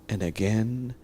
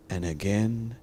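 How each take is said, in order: Both takes have the same delivery.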